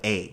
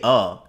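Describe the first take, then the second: First: The word is said as a full 'ay'. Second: The word is said as a short 'uh'. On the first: The speaker calls it right. "instead of a" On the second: The speaker calls it wrong. "I say uh instead of a"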